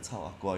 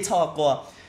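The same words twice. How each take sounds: First: It is said in a soft, gentle tone. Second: It is said in a harsh, fierce tone. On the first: "you don't say in a very gentle tone" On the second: "it's always like eh chao aqua it has a very fierce"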